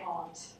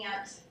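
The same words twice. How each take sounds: First: The vowel is an open 'ah' sound. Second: The vowel sounds like the one in 'ant'. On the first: The speaker wants to sound more proper. "when I want to sound more proper, I would say aunt" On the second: The speaker is talking casually. "my colloquial pronunciation"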